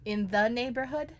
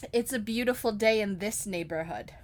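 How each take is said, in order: First: Questioning stress on THE, rising at the end. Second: "this" set out clearly, falling at the end; stress on THIS. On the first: Checking the lyric with the singer, stress on THE. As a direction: lean on "the" and lift into a question. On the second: Correcting the singer's lyric, stress on THIS. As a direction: give the correct word "this" its own weight. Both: Shown as a demonstration.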